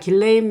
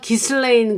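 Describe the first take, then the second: First: The name is said without an S sound. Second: The name is said with an S sound. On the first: The speaker calls it right. "S가 묵음이라 길레인 맥스웰이라고" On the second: The speaker calls it wrong. "그 S를 발음을 에, 해서 기슬레인"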